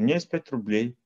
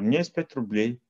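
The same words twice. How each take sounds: First: It is said in a modest, humble tone. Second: It is said in a modest, humble tone.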